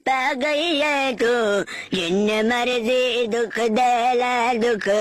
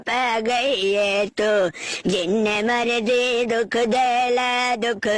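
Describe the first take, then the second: No difference in how they are said.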